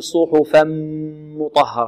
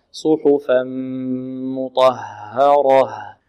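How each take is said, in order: First: "صحفا مطهرة" mispronounced with lips clamped on the merged م; over-pressed lips on م. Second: Slow "صحفا مطهرة" with a long hum on a lightly closed م; relaxed merged م. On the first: Teacher imitates some students' mistake, over-pressed م in "صحفا مطهرة". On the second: Teacher models it after the mistake, relaxed merged م in "صحفا مطهرة". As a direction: merge the tanween into a soft-lipped, held م in "صحفا مطهرة". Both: Shown as a demonstration. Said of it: "لا نكز الشفتين مع الميم".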